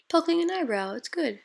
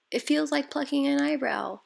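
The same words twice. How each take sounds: First: Higher echo of her words; imitating client. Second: Higher voice mimicking the client; imitating client. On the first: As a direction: repeat it in her voice. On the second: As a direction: quote her the way she said it. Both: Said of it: "I don't know if that sounded like her at all".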